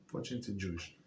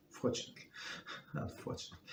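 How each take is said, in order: First: Dropped low and soft under the breath; half swallow it as a quick aside; a soft murmured afterthought; muttered aside. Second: Breathy whisper with a small laugh; sheepish whispered fix; whispered correction. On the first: Muttered aside, then corrected. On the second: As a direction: whisper it, catching the slip. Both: Real, not acted.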